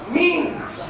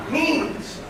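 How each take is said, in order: Both takes have the same delivery.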